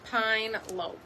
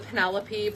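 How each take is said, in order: First: The name is said with two syllables. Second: The name is said with four syllables. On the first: The speaker calls it wrong. "we're saying it wrong" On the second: The speaker calls it right. "it's supposed to be the Penelope"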